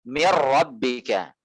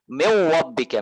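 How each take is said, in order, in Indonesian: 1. Huruf r diucapkan dengan getaran ringan dan terkendali. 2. Huruf r tidak bergetar, terdengar seperti w. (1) "maka sertakan sifat takrir pada ra" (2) "Mana takrirnya? Hilang"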